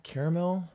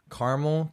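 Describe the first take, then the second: First: "Caramel" in three syllables, CARE-uh-mel. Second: "Caramel" squeezed to two syllables, CAR-mul. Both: Shown as a demonstration. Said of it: "There are right answers, people".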